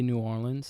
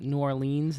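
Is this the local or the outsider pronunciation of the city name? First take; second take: local; outsider. First: It is said in the local New Orleans way. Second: It is said in an outsider's way. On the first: The speaker is from the city. The speaker calls it right. "people from New Orleans say" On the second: The speaker is not from the city. The speaker calls it wrong. "other people go"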